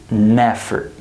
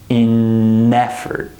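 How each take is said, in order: First: The n is carried onto the next word. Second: The n stays separate from the next word.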